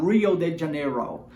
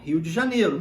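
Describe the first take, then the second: First: It is said with an American English accent. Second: It is said with a Brazilian Portuguese accent. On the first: The speaker calls it wrong. "Não há necessidade de você falar Rio de Janeiro. Quem vai fazer isso vai ser o americano" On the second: The speaker calls it right. "o sotaque, a pronúncia do português mesmo"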